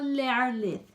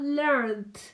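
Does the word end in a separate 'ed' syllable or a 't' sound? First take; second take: ed syllable; t sound. First: The ending is a separate syllable with a vowel. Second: The ending is a short 't' sound, no vowel. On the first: The speaker calls it wrong. "No pronunciamos la E, no decimos learned" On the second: The speaker calls it right. "decimos learned"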